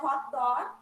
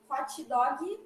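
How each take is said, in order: First: It is said with an English accent. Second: It is said with a Brazilian Portuguese accent. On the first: This is the original form. "Mas a pronúncia seria" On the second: This is the local adapted form. "vocês falam, né? A gente abrasileirou o inglês"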